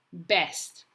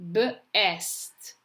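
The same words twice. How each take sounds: First: Said in the usual way. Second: B split off from "est"; sounding out. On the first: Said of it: "you're going to read the word". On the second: Shown as a demonstration. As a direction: say B, then est, separately. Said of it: "say the letters as you're writing".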